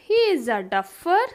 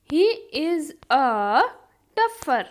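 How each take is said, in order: First: Said in the usual way. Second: Drawn-out words, pause before the last; slow teaching repeat. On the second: Shown as a demonstration. Teacher repeats the duffer example for learners, slow and split. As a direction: stretch each word, then set "duffer" apart.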